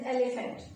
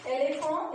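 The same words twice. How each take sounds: First: Said in the usual way. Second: "elephant" said the French way, ending in a nasal vowel; French pronunciation. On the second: Shown as a demonstration. Teacher giving the French word to learners, French "elephant" with silent nt. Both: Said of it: "elephant is elephant".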